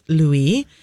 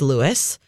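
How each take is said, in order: First: The name is said the French way. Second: The name is said the Americanized way. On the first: The speaker calls it right. "The French pronunciation is Louis, and the answer is the latter" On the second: The speaker calls it wrong. "Americanized pronunciation is Louis"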